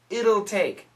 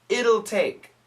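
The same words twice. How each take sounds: The two takes are said the same way.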